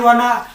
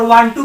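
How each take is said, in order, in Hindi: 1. दोनों शब्द जुड़कर एक हो जाते हैं। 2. दो अलग-अलग शब्द पूरे बोले जाते हैं। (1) "आई वाना कप ऑफ टी" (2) "वांटू को बोलता है"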